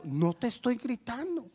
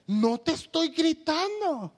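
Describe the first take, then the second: First: Said in the usual way. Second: Slow, high, raised-voice protest; mock yelled denial. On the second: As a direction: deny shouting while nearly shouting. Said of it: "Me estás gritando".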